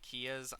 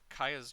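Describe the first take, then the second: First: The name sounds like the car brand Kia. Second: The name does not sound like the car brand. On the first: The speaker calls it wrong. "for those that say Kias ... a Kia, as in a car" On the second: The speaker calls it right. "I pronounce it"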